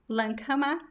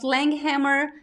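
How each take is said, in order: First: The name is said with a German pronunciation. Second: The name is said with an American English pronunciation. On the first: This is the original pronunciation. "the original pronunciation is actually in German" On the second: This is how it is said in the US. "In the U S, I pronounce"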